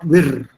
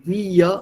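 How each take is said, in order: First: The r is pronounced as a distinct consonant. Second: The r melts into the vowel sound. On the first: The speaker calls it wrong. "not vir" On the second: The speaker calls it right. "Similarly, via"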